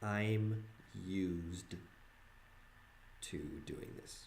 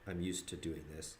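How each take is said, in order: First: 'Used' is said as in exploited, with a z sound. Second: 'Used' is said the usual way, with an s sound. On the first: The speaker is being used by others. "pronounce it a different way" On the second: The speaker is accustomed to doing this. "not like I'm used to doing this"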